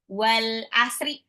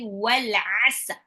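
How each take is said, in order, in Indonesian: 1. Kata terakhir diakhiri dengan vokal tambahan. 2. Kata terakhir berakhir pada konsonan mati. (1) "cara bacanya bukan wal asri ya" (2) "tapi wal asr ya"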